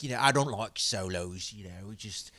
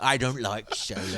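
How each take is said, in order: First: Light attempt at an Irish accent. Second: Quick attempt at an Irish accent. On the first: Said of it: "That's the best Irish accent I get". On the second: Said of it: "Irish accent".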